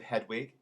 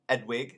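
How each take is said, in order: First: The H at the start is pronounced. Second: The H at the start is dropped. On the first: "instead of Hedwig" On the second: "Edwig instead of Hedwig"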